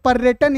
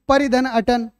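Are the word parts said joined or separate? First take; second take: joined; separate. First: The parts are said quickly, run together. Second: The parts are said slowly and separately.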